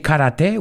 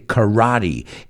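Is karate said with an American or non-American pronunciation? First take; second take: non-American; American. First: It uses a non-American pronunciation. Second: It uses the American pronunciation. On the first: The speaker calls it wrong. "We don't say karate" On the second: The speaker calls it right. "Eso es la pronunciación americana"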